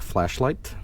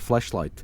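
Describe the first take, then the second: First: The word is said slowly and carefully. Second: The word is said quickly and slightly garbled. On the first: The speaker calls it right. "I always have to stress the word flashlight" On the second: The speaker calls it wrong. "I missay it and I say flashlight"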